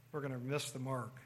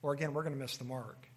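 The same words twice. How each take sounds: First: Soft repeat. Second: Said in the usual way. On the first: Shown as a demonstration. Preacher echoing his warning to the congregation, quietly. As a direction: let the line sink in quietly.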